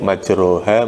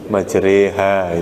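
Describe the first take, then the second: First: The vowel after 'r' is a back 'o/a' sound. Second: The vowel after 'r' is bent toward 'e'.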